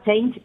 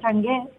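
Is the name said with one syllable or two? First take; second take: one; two. First: It sounds like the one-syllable English word change. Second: It is said as two syllables, Chang-e. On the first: The speaker calls it wrong. "parece que ponga change, como en inglés" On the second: The speaker calls it right. "Pero se pronuncia Chang'e"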